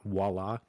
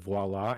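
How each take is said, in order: First: The word begins with a W sound. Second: The word begins with a V sound. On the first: The speaker calls it wrong. "and not voila. I thought the V was a W" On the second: The speaker calls it right. "voila is pronounced as voila"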